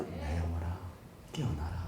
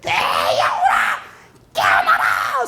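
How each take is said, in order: First: Much softer, lower, limp; weak mumble. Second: Slow, loud commanding call; loud preacher's command; bold proclamation. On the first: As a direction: mumble it half-heartedly. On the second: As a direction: proclaim it with force. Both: Shown as a demonstration. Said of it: "소리냐?".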